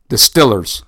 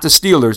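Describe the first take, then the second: First: The first vowel is short, like in 'still'. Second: The first vowel is long, like in 'steel'. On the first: This is how locals in the area say it. "like they call them out there in Pittsburgh" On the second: This is the usual way most people say it. "Not the Steelers"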